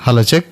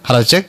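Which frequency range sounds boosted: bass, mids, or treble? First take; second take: bass; mids. First: The voice sounds heavy with boosted low frequencies. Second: The voice sounds changed with boosted middle frequencies. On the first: "ఇప్పుడు base పెంచుతాను చూడండి" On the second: "ఇప్పుడు mid పెంచుతాను చూడండి"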